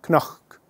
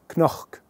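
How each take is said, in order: First: The word starts with a k-n sound. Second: The word starts with a k-n sound.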